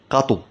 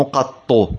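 First: قطو as short qa-tu, no held ط; light single ط. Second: قطو as qat-tu, with a held ط; doubled ط, rejected form. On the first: Teacher correcting to the light form, قطو with one ط. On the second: Teacher contrasting forms, قطو with a heavy doubled ط. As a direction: stop on the ط of قطو, then release tu. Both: Shown as a demonstration. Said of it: "تخفيف الطاء".

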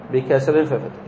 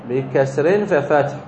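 First: Said in the usual way. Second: بكسر stretched out slowly, each syllable laid out; slow dictation. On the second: Shown as a demonstration. Teacher slowly dictating the vowel pattern to the class. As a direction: spell the pattern out slowly for students.

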